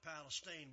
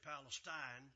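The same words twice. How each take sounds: First: It is said with an East Texas pronunciation. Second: It is said with an outsider's pronunciation. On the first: This is how locals have always said it. "we've always called it Palestine" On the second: This is how people from elsewhere say it. "Everybody else comes from another country and will say Palestine"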